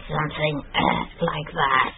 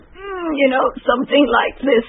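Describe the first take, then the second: First: Soft, airy irregular voice; breathy deviant voice. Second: Much higher, tight, crying strain. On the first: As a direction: let the voice go breathy. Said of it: "a lot of breathiness". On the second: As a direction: squeeze the sound out, strained. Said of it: "a strained voice". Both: Shown as a demonstration.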